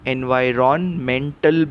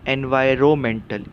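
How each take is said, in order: First: The n sound before 'mental' is pronounced. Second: The n sound before 'mental' is silent. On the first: "आप इसका उच्चार एनवायरमेंटल भी कर सकते हैं" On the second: "सही उच्चार क्या है? ... वो साइलेंट है"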